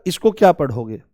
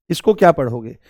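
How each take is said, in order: Both takes have the same delivery.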